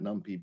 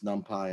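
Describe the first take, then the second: First: The second syllable sounds like 'pee'. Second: The second syllable sounds like 'pie'. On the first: The speaker calls it wrong. "and not NumPy" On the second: The speaker calls it right. "my guess is it's NumPy"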